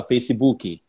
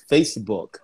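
First: "Facebook" with an extra i ending, "feici-BU-ki"; "Facebook" as Brazilians say it, ending in "-ki"; Brazilian vowel added. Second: "Facebook" in two syllables, FACE-book; "Facebook" without the Brazilian i sounds; correct English ending. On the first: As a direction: say "Facebook" with a supporting vowel after the k. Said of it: "que a galera fala Facebook". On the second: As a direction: say "Facebook" ending on k with no extra vowel. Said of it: "você fala". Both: Shown as a demonstration.

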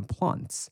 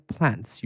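First: Plants said with the long broad ah vowel, slower, as Brits do; other Australian way. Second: Plants said with the short flat a, as Americans do; one Australian way. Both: Shown as a demonstration. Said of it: "有人念".

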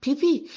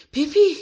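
First: Higher, louder call of a name; first call across the porch. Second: Much higher and louder second call; boy yelling for his friend a second time. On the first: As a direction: call out to get her attention. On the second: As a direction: shout the name again, insisting. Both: Acted. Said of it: "او گفت".

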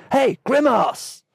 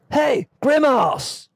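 First: High, slow Aussie call over a loudspeaker; Australian accent. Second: High, slow Australian lifeguard shout; Australian accent. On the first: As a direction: shout it like an Aussie lifeguard. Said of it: "The lifeguard's voice relayed through the loudspeakers". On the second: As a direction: call out in an Aussie accent. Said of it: "I can't do anything but an Australian accent there". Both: Retold or imitated.

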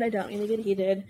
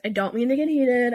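First: Said in the usual way. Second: A bit heated. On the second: Real, not acted. Vlogger apologising to her viewers, still heated and loud. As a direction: apologise while still fired up. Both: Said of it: "I'm getting heated".

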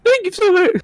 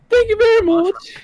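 First: Put-on girl voice. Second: Put-on high girly thank-you; girl voice retake. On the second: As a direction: squeak it higher and sweeter. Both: Shown as a demonstration. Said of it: "let me try that again".

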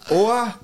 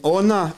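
First: High oa said as two vowels with no n; oa, the wrong ending without the n; Swahili ending oa. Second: Ona said with the n clearly sounded; ona, the right ending with the n; Swahili ending ona. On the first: Explaining the Swahili mistake, high oa without n. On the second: Explaining the Swahili mistake, ona with a clear n. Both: Shown as a demonstration. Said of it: "The difference is".

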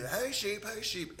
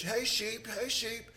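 First: Put-on a young visitor trying the uncle's call, mildly New Zealand; nephew copying the shepherd call. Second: Put-on a light New Zealand accent, calling high to the sheep; New Zealand shepherd call. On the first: Nephew imitating the uncle calling sheep, in a light New Zealand accent. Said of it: "And he'd do". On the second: Shepherd calling his flock, lightly New Zealand accented, pitched high. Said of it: "in a New Zealand accent".

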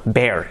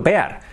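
First: Said in the usual way. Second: "bear" as written, Spanish-style "be-ar"; spelling pronunciation. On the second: Shown as a demonstration. Teacher spelling the animal for learners, "bear" as "be-ar". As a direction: sound the e and a of "bear" separately. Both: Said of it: "Escrito bear".

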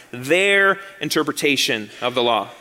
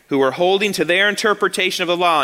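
First: Their leaned on, rest falling away; pointed stress on their, not the law itself. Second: Said in the usual way. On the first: Shown as a demonstration. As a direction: put the weight on their. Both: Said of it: "and let me emphasize".

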